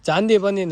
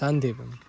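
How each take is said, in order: First: The word begins with a 'ch' sound. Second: The word begins with an 's' sound. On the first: The speaker calls it wrong. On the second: The speaker calls it right.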